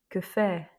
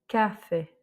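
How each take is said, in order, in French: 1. L'accent tombe sur la dernière syllabe. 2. L'accent tombe sur la première syllabe. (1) "l'accent tonique se fait sur la voyelle qui a un accent graphique" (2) "et non pas"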